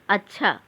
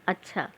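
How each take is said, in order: First: It is said with a questioning rise. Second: It is said with an exclaiming, surprised tune. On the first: It asks something. "प्रश्न" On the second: It expresses astonishment. "आश्चर्य"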